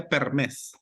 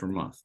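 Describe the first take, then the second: First: "per mes" said like Spanish "mes"; wrong pronunciation. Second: "Per month" with a clear English "month"; correct pronunciation. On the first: Retold or imitated. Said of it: "you say per mes, but it's not per mes". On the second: Shown as a demonstration. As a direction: model "month" with the th. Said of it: "but it's not per mes".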